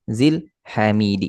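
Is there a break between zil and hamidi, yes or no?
yes. There is a break between the two words. The speaker calls it wrong. "Ini putus"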